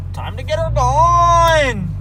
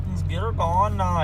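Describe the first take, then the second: First: High, loud, stretched-out hype; excited drawn-out call. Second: Said in the usual way. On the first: Acted. Revving up the truck.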